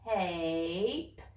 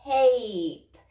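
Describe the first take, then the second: First: Tape drawn out slowly, sound by sound; slow stretched blending. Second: Tape said quickly and loudly as one word; said fast. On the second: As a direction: snap Tape together, loud and quick. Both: Shown as a demonstration. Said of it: "Say it fast".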